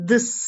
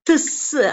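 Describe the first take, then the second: First: The th sound is said lightly and softly. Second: The th sound is pressed hard and strongly. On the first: The speaker calls it right. "லைட்டா th த sound சொன்னா போதும்" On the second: The speaker calls it wrong. "நம்ம திஸ் அப்படின்னு இங்க சொல்ல வேண்டியது இல்ல"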